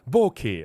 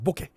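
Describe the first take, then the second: First: The word is said slowly, both syllables drawn out. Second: The word is said quickly, syllables run together. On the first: "I slowed it down because I want to emphasize both words, all right, both syllables" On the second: "He said it faster, right? Very fast"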